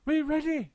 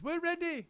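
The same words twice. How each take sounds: First: High, louder eager reply; the monkey chorus; monkeys answering. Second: Very high, lighter chirp; the bird chorus; birds answering. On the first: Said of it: "said the monkeys". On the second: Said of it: "said the birds". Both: A narrator's reading.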